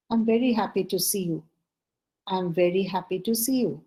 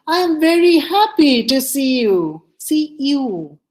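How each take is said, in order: First: Emotionless. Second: Loud, high, delighted greeting; emotion attached. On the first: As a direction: say it as if you feel nothing. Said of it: "so many emotionless conversations". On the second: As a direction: burst with joy at seeing them. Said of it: "You attach your emotions". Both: Shown as a demonstration.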